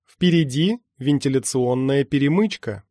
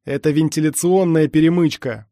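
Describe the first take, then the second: First: Lightly voiced computer alert; measured warning of what lies ahead. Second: Loud, urgent explanation; yelling. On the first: AI Alice to the runner in the tunnels, mild warning. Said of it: "подала признаки жизни Элис". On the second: Mirage yells into his ear over gunfire, urgent shout. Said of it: "проорал мне в ухо Мираж". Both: A narrator's reading.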